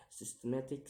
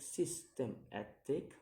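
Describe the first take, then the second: First: Said in the usual way. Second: "systematic" split into syllables; separated syllables on "systematic", rising at the end. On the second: Shown as a demonstration. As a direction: sound out "systematic" piece by piece. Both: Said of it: "count the word syllable backwards".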